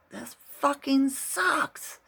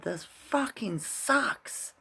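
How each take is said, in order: First: Hammed-up scream of frustration; retold scream. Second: High, slow, drawn-out mock yell; mild mock yell of frustration; retold yell. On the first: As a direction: belt it out like finally letting the anger go. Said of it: "Scream it". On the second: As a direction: stretch it out high like you're egging him on. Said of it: "and I yelled at him".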